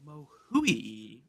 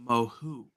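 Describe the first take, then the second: First: "Mohui" ending in a drawn-out OO-EE glide; alternative French pronunciation. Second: "Mohu" in two syllables, ending on OO; French pronunciation. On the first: Host offering another guess at the French name, pronounced "Mohui". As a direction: say "Mohui" as moh-HOO-ee. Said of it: "might, might actually be". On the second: Host showing his researched French name, pronounced "Mohu". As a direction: say "Mohu" as moh-HOO, silent T. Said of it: "the French pronounce this guy's name". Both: Shown as a demonstration.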